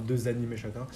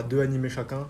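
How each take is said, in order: First: "deux animés" linked with a z sound; liaison made. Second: "deux animés" with no z sound between the words; missing liaison. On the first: Host correcting himself on two anime each, z liaison in "deux animés". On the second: Host announcing two anime each, liaison left out in "deux animés". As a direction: say "deux animés" with a silent x, vowels meeting. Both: Real, not acted. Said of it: "enfin, deux animés chacun".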